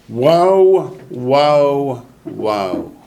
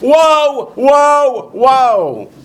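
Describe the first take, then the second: First: It is said fairly quietly. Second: It is said loudly.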